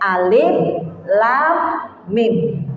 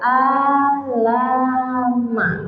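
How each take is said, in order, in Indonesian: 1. Nama tiap huruf diucapkan terpisah. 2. Hurufnya disambung jadi satu kata. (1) "Yang boleh alif, lam, mim" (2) "nggak boleh kita baca alama"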